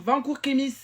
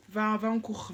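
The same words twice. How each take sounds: First: Louder, higher yell of an order; yelling at him. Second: Said in the usual way. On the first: Real, not acted. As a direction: bark him back to class. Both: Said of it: "je lui crie dessus".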